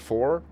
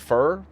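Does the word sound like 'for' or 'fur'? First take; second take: for; fur. First: The vowel sounds like the one in 'four'. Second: The vowel sounds like the one in 'fur'. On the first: This is the standard way of saying it. "instead of for" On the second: This is the regional way of saying it. "It's like how we say fur"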